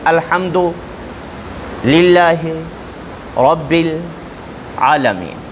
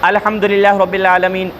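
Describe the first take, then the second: First: There are pauses between the separate words. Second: The words run together without breaks. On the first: The words are only repeated, not recited. The speaker calls it right. "वक्फ़ कर कर के, गैप कर कर के पढ़े" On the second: It is read as a recitation of the whole verse. The speaker calls it wrong. "इस तरीके से पूरी आयत ना पढ़े"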